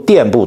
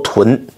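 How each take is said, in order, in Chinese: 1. 这个字读 diàn。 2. 这个字读 tún。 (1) "有人把她读垫部，读错了啊" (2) "那字读臀"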